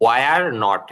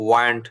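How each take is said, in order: First: It is said as two full words. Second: It is said as one contracted word. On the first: "সহজ বলতে ওয়ার নট" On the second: "এটাকে আপনারা ওয়ারেন্ট বলবেন"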